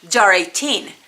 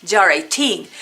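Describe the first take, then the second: The two takes are said the same way.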